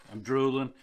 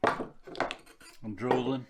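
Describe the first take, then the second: First: Said in the usual way. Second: Slow, drawn-out drool. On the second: Real, not acted. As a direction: let the words drip slowly like drool.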